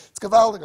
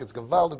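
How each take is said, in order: First: High and loud gush of delight; excited burst. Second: Said in the usual way. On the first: Retold or imitated. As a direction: blurt out gewaldig in sheer joy. Chassid praises davening, bursting out.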